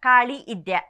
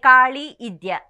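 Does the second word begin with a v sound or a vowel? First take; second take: vowel; vowel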